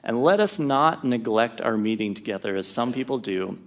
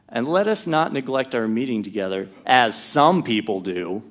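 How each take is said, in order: First: It is read in a plain, neutral tone. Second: It is read with pointed, sarcastic emphasis.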